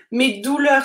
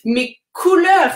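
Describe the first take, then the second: First: "Mes douleurs" with a clear d sound, as the mistake; the d of "douleurs" set apart, as the wrong take; wrong word shown. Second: "Mes couleurs" higher and louder, with a crisp k; "couleurs" said loudly and clearly, as the fix; correct word. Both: Shown as a demonstration. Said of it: "Non, les douleurs, c'est quand on a mal".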